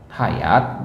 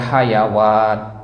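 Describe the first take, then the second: First: No w sound is said in the middle. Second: A w sound is said in the middle. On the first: The speaker calls it right. "hayat bacanya" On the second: The speaker calls it wrong. "jangan dibaca hayawat"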